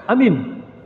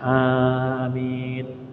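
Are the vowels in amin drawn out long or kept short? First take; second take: short; long. First: The vowels are said short and clipped. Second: Both vowels are drawn out long. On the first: The speaker calls it wrong. "jangan seperti itu" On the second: The speaker calls it right. "a panjang, mi panjang"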